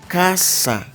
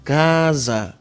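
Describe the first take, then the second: First: The middle s is voiceless, a plain hiss. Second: The middle s is voiced, with a buzz. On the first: "la sorda es un sonido como s, s, s" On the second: "La S sonora se siente su pronunciación"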